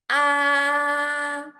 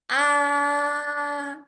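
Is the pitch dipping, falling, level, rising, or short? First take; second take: level; level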